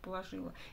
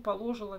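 First: The stress falls on the third syllable. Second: The stress falls on the second syllable. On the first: The speaker calls it right. "вместо «положила»" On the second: The speaker calls it wrong. "Я 150 раз еще скажу «положила» вместо"

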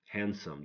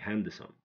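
First: The D is silent. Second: The D is pronounced. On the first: The speaker calls it right. "We don't pronounce the middle one" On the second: The speaker calls it wrong. "don't say handsome"

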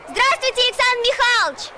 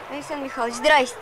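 First: It is said with exaggerated, overacted expression. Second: It is said flatly, without expression.

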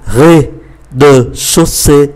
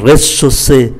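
First: The word is said slowly and carefully. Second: The word is said quickly and run together.

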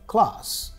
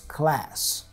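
First: The A has a broad British 'ah' vowel. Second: The A has a flat American vowel. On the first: "you see the A there? Ah"

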